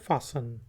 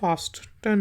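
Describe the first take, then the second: First: The t in the middle is silent. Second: The t in the middle is sounded. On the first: The speaker calls it right. "ये है फासन" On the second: The speaker calls it wrong. "ये फास्टन नहीं है"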